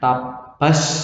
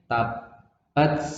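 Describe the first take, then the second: First: The final t becomes a strong s sound. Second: The final t has a slight hiss. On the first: The speaker calls it wrong. "nggak boleh dibaca S banyak" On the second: The speaker calls it right. "jadi ada S-nya, ada S-nya"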